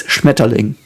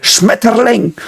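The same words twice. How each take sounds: First: Said in the usual way. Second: High, slow mock-harsh "Schmetterling"; Hitler. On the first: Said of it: "But that's not German". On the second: Showing the speech mode Hitler used, mock-harsh "Schmetterling". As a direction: bark out a stretched, higher-pitched "Schmetterling". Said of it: "the speech mode Hitler used".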